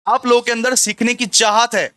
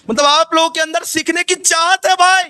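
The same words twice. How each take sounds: First: Said in the usual way. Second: Raised, high-pitched exclaiming to students; high, emphatic teacher's outburst; emphatic exclamation. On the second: Shown as a demonstration. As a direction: call it out high and insistently.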